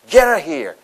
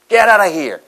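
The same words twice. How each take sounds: First: The words run together with reduced sounds. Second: The words run together with reduced sounds.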